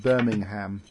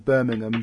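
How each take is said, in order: First: It is pronounced the American way. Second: It is pronounced the British way.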